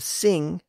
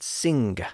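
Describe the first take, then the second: First: It ends in a nasal with no g sound. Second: It ends with a distinct hard g sound. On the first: This is the modern pronunciation. "instead of sing" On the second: This is the older pronunciation. "people said sing"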